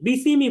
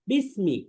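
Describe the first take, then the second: First: An extra vowel is heard between s and m. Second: The s and m join with no vowel between. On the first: The speaker calls it wrong. "এখানে অনেকে বলে বিসিমি বিসিমি বলে" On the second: The speaker calls it right. "এটা হবে বিসমি"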